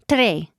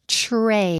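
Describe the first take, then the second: First: The 'tr' is said with a Spanish-style t and r. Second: The 'tr' is said with an English t and r. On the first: The speaker calls it wrong. "People say tray" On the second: The speaker calls it right. "No, tray"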